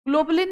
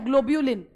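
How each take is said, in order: First: The second syllable is a plain 'bu' sound. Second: The second syllable has a 'byu' glide sound. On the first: The speaker calls it wrong. "ग्लोबुलिन नहीं है" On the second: The speaker calls it right. "ब्यूलिन सोचो कैसे लिखोगे"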